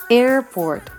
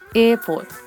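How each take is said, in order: First: The r after the vowel is clearly sounded. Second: The r after the vowel is not sounded. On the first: "交互に北米とイギリス、オーストラリア発音を発音していきます" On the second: "イギリス、オーストラリア発音"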